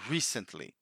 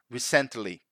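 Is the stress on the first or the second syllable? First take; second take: first; second. First: The stress falls on the first syllable. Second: The stress falls on the second syllable. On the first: The speaker calls it right. "So the emphasis is in the first syllable" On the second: The speaker calls it wrong. "they put the emphasis in the wrong syllable. They say something like recently"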